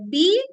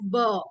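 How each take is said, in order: First: It is said as the letter name 'bee'. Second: It is said as the bare consonant sound. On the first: The speaker calls it wrong. "We are not reading it uh, as B" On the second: The speaker calls it right. "We are reading it as B"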